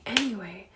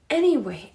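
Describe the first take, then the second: First: Said in the usual way. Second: Anyway, said louder with a falling close; anyway, punched up then dropped; a mock-emphatic anyway. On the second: Shown as a demonstration.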